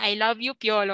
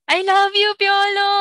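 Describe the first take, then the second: First: It is said flatly, without emotion. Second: It is said with strong emotion.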